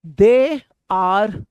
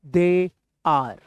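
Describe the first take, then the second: First: Teacher's model take. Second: Said in the usual way. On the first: Shown as a demonstration. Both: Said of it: "repeat करते रहिए".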